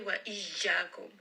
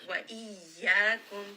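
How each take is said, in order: First: The y is pressed hard and sounds like j. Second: The y is pressed moderately and stays a y. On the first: The speaker calls it wrong. "Now this sounds like a jim. I am applying too much pressure" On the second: The speaker calls it right. "apply just enough pressure that it stays a ya"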